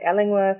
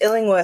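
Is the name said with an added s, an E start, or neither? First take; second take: E start; neither. First: It starts with an 'E' vowel sound. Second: It starts with 'Ill' and has no 's' sound. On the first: The speaker calls it wrong. "or they want to say Ellingworth" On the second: The speaker calls it right. "It's just Illingworth"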